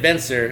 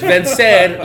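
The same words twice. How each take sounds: First: It is said with an American English pronunciation. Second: It is said with a Spanish pronunciation. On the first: The speaker calls it wrong. "I was reading it Vencer and right. Like a gabacho gringo" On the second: The speaker calls it right. "but it's Vencer, like to overcome"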